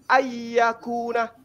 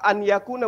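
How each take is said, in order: First: The n sound merges into the following y. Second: The n sound is clearly pronounced before y. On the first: "berubah menjadi ayyakuna" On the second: "anyakuna berubah menjadi"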